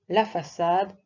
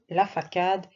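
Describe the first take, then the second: First: The middle consonant is an S sound. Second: The middle consonant is a K sound. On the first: The speaker calls it right. "Pour obtenir le son S devant A, O, U, on écrit un C C D" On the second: The speaker calls it wrong. "si tu mets un C, ça fera ... Ça ne veut rien dire"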